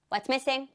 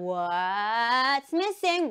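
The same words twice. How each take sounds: First: Said in the usual way. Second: Very slow, stretched question; suspense-building quizmaster call; drawn-out game call. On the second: Shown as a demonstration. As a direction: stretch "what's" right out. Game catchphrase called to children.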